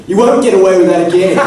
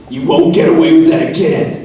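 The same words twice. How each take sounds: First: Same threat in a plain Australian accent, loud. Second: Dramatic American accent, pitched high and loud. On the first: Actor showing how the line sounds in an Australian accent. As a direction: deliver it the Australian way, less drama. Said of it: "when you say an Australian accent". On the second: Actor demoing dramatic dialogue in an American accent. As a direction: say it like an American TV villain threat. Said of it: "you know, American accent". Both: Shown as a demonstration.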